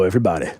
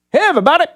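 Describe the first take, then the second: First: Said in the usual way. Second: Everybody called out high and loud, rising at the end; high loud greeting. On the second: Acted. Host calls out to listeners: high loud hello. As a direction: sing out a big hello to the whole audience.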